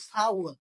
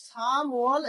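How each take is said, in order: First: সা ওয়াল with an open first syllable. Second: সাম ওয়াল with M closing the first syllable; sounded M. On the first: Teacher contrasts April with March, সা ওয়াল without M. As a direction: glide from সা to ওয়াল without any M. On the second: Teacher contrasts March with April, সাম ওয়াল with M. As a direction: make the M in সাম ওয়াল audible. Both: Shown as a demonstration. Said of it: "একটা ময়ের ব্যবধান".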